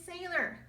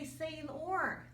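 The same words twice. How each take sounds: First: The last syllable is a weak 'er' sound. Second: The last syllable is a full 'or' sound. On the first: The speaker calls it right. "er in sailor" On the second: The speaker calls it wrong. "we don't say sailor like we learned in or in morning"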